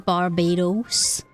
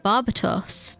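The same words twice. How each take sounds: First: It has an American accent with a D sound. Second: It has the speaker's own accent with a T sound. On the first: The speaker calls it wrong. "with American accents they're pronounced with a D, like a Barbados. But like that was a terrible American accent" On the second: The speaker calls it right. "I want to call him Barbados. That's how I want to say it"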